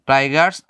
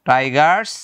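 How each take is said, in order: No difference in how they are said.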